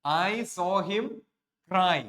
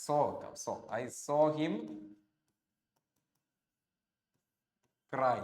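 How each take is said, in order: First: "I saw him cry" stretched out very slowly and a bit louder; extra slow emphasis. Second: Very slow, each word apart as if writing on the board; slow dictation. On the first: Teacher repeating the example before explaining it, drawn out. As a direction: linger on each word so the class hears it. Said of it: "എന്താ അതിന്റെ അർത്ഥം?". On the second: Teacher reading a board example aloud to students, slowly. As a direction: dictate "I saw him cry" word by word. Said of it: "teacher dictates example while writing". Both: Shown as a demonstration.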